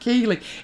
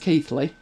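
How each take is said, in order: First: It is pronounced the way non-Yorkshire people say it. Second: It is pronounced the way Yorkshire people say it. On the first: The speaker calls it wrong. "People not from Yorkshire pronounce it Keely" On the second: The speaker calls it right. "But I've heard it as Keithley"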